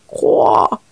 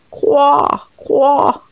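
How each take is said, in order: First: Croa breathed low with no voice; low whispered croak. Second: Higher croaks from the pond; frog croaking. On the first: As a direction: let the last croak die away. (coassement chuchoté et grave) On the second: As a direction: croak mournfully. (coassements aigus) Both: Acted. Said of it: "les croissements douloureux des grenouilles".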